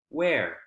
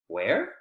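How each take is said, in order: First: The pitch falls at the end. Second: The pitch rises at the end. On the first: It asks for new information. "with W H questions that have falling intonation at the end, you're requesting for information" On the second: It asks for the information to be repeated. "With W H questions that have rising intonation at the end, it's a request to please repeat"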